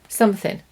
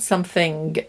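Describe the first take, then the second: First: The word ends without a final g sound. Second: The word ends with a clear final g sound. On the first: The speaker calls it right. "We miss the G" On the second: The speaker calls it wrong. "not something"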